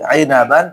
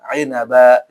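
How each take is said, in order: First: The word ends with a final n sound. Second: The word ends on a long vowel, no n. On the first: The word is read in full with its ending. "mengikuti ainaban" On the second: The word is read as when stopping on it. "dibaca ainaba"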